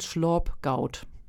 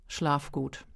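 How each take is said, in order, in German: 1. Das wird auf Friesisch-Platt gesagt. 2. Das wird auf Hochdeutsch gesagt. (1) "Das ist mein Platt" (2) "Ich sag dir jetzt mal erstmal auf Hochdeutsch"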